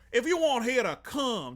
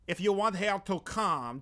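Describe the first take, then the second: First: It is spoken in a Creole accent. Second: It is spoken in a French accent.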